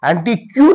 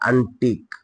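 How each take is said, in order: First: The word ends with a kyoo sound. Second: The word ends with a plain k sound. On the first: The speaker calls it wrong. "क्यू नाही म्हणायचं क्यू म्हणायचंच नाही" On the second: The speaker calls it right. "लक्षात ठेवा हे A N T I काय होईल अंटिक"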